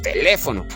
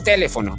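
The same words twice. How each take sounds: First: The stress is on the second syllable. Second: The stress is on the first syllable. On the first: The speaker calls it right. "Si llevara la fuerza de voz en le" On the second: The speaker calls it wrong. "Si llevara la fuerza de voz en T"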